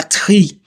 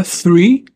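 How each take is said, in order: First: "tree" with a plain hard T; wrong take of three, said "tree"; T instead of TH. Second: "three" with a clear voiceless TH; tongue-between-teeth TH starting "three". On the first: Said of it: "C'est pas tree". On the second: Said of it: "on aura th". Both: Shown as a demonstration.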